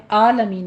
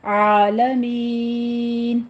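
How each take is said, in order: First: عالمین with a glottal آ instead of عین; wrong version. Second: Very slow عالمین with the عین from mid-throat; correct عین. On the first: Teacher shows the hamza mistake. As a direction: say عالمین with a plain hamza sound. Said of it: "عالمین نہیں کہنا". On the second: Teacher models the throat عین slowly. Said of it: "عین کو آپ نے وسط حلق سے ادا کرنا ہے". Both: Shown as a demonstration.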